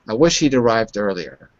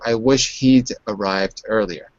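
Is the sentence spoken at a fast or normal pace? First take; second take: fast; normal. First: It is spoken quickly, with words run together. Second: It is spoken at a normal, unhurried pace.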